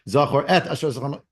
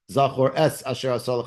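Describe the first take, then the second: First: The word 'et' ends with a T sound. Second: The word 'et' ends with an S sound. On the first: This reading is in another tradition's pronunciation. "is the wrong havara"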